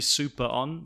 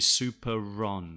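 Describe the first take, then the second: First: The R linking into on is weak. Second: The R links clearly into on.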